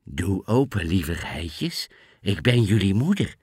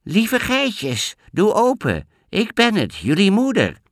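First: Sweetest voice. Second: Wolf faking a high sweet voice; high little voice. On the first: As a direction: coax lightly as the wolf. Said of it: "met zijn liefste stem". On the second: Wolf pretending to be mother goat, fake high voice. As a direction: squeeze the voice up high to fool them. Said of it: "met een hoog stemmetje". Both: Acted.

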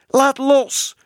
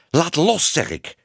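First: Very high, loud screamed order; shrieking child. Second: Raised first words, dropping to a firm finish; firm command. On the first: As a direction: shriek it like a furious little girl. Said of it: "gilde Bibi". (gillend als een klein meisje) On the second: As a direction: order it sternly, short of a scream. Tibbe orders Minoes again. (streng, dringend bevel) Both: A narrator's reading.

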